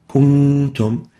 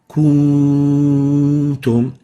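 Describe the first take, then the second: First: The nasal n sound is held briefly. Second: The nasal n sound is stretched too long. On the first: The speaker calls it right. "Example of that is kuntum" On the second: The speaker calls it wrong. "if we extend the ghunna of the noon, it will sound like"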